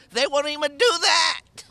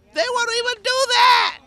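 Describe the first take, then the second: First: Raised, indignant voice; they won't even do that, said with rising anger; angry complaint. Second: High, loud outraged cry; angry shout. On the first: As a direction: push the complaint harder. Tenant repeats complaint, rising anger. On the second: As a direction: shout it out at the landlord. Tenant repeats complaint, shouting now. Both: Real, not acted.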